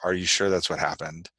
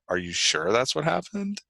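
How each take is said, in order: First: The question sounds warm and reassuring. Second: The question sounds skeptical and questioning. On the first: The asker wants to comfort the listener. "can be reassuring" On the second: The asker suspects the account is false. "can be skeptical"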